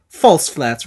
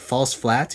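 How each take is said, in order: First: Imitated Italian accent, falling firmly on "flats"; mock Italian pronouncement of "False flats"; Italian coach accent. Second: Puzzled echo, rising on "flats"; puzzled question. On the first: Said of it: "he's got this thick Italian accent". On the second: Retold or imitated. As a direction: query "False flats" quietly, lifting the end. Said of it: "We're like".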